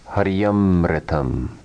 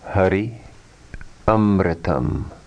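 First: The words are joined with a y sound. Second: The two words are kept apart.

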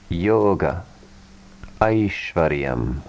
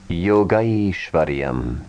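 First: The two words are said separately. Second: The two words are merged into one.

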